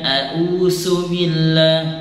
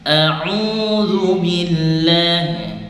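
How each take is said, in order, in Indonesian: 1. Konsonannya terdengar seperti 's'. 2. Konsonannya terdengar seperti 'z'. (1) "Jadi bukan su, bukan"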